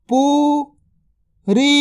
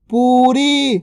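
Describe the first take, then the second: First: पूरी drawn out very slowly; slow stretched word. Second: Said in the usual way. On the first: Shown as a demonstration. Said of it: "stretched drill take". (पूरी को धीरे खींचकर बोलें) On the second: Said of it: "normal take".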